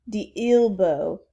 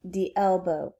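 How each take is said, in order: First: "elbow" drawn out with an ee start; mispronounced elbow. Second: "elbow" with a short e, no drawl; corrected elbow. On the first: Princess reciting wrongly, "elbow" as slow eel-bow. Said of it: "With all due respect". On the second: Alice correcting the princess, "elbow" with short e. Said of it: "That's what I said". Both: Acted.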